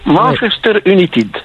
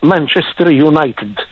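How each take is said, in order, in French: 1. Le nom est prononcé avec un accent français. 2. Le nom est prononcé avec un accent anglais. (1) "Ils disent Manchester United" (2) "ils ne disent pas Manchester United"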